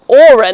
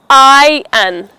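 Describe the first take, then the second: First: The R in the word is sounded. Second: The R in the word is silent. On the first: The speaker calls it wrong. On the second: The speaker calls it right. "The R in the word is silent"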